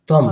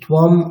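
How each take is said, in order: First: The word begins with a plain t sound. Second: The word begins with a tv sound. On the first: The speaker calls it right. "শুধুমাত্র ত আছে" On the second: The speaker calls it wrong. "এরকমটা ঠিক হবে না"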